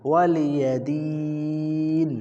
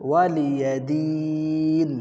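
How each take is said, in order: No difference in how they are said.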